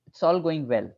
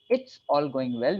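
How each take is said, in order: First: The first vowel is dropped, starting with "ts". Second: The first vowel of "it's" is clearly pronounced. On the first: The speaker calls it right. "So we really start the sentence with a T" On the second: The speaker calls it wrong. "So instead of saying it's all going well"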